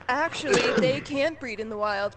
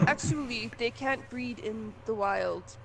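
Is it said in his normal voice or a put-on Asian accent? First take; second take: normal; Asian accent. First: It is said in his normal accent. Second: It is said in a put-on Asian accent.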